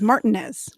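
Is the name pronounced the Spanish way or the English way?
English. The name is said with English pronunciation. This is how locals said the name. "that it was"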